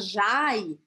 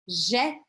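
First: The vowel glides like 'ai'. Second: The vowel is a plain 'é' sound. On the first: The speaker calls it wrong. "eu não vou falar Jai" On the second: The speaker calls it right. "eu vou falar Jé"

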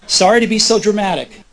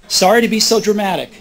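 No difference in how they are said.

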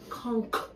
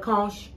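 First: The word ends with a k sound. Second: The word ends with a ch sound. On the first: The speaker calls it right. "The CH is silent" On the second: The speaker calls it wrong. "Y'all call it conch. It's not conch"

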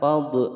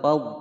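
First: The final consonant is released with a bounce. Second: The final consonant is held without a bounce. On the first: The speaker calls it wrong. "Salah jika membaca fad" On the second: The speaker calls it right. "Yang betul adalah fad"

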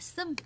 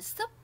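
First: The syllable ends with an m sound. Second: The syllable ends with a p sound. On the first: The speaker calls it right. "mà là sum" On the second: The speaker calls it wrong. "không phải là sup"

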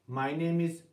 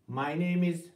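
No difference in how they are said.

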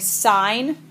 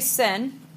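First: The vowel is long, rhyming with 'fine'. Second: The vowel is short, rhyming with 'fin'. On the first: The speaker calls it right. "You're going to say sine" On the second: The speaker calls it wrong. "So do not say sin"

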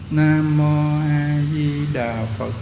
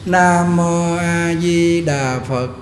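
First: The phrase is recited in a soft voice. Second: The phrase is recited in a loud voice. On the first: The speaker calls it right. "Nhỏ tiếng" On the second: The speaker calls it wrong. "Niệm ra tiếng lớn nè"

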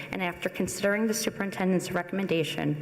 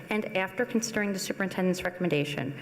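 Both takes have the same delivery.

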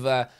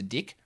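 First: The name is said with a plain vowel. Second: The name is said with a New Zealand vowel.

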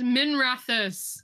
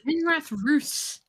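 First: It runs together as one smooth word. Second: It is split in two with a hard R. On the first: The speaker calls it right. "It's Minrathus" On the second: The speaker calls it wrong. "Really enunciating the R"

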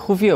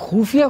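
First: The first vowel is a short u sound. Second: The first vowel is a long u sound. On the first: The speaker calls it right. "खुफिया होता है" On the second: The speaker calls it wrong. "तुम बड़े ऊ की मात्रा लगा रहे हो"

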